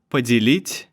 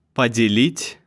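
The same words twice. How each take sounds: The two takes are said the same way.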